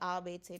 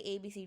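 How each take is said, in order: First: The letters are named with German letter sounds. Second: The letters are named with English letter sounds. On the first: The speaker calls it right. "you say A B C" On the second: The speaker calls it wrong. "you don't say A B C D"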